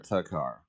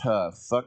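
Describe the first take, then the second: First: The name starts with a plain 't' sound. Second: The name starts with a breathy 'th' sound. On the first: The speaker calls it right. "or a t" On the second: The speaker calls it wrong. "with a th"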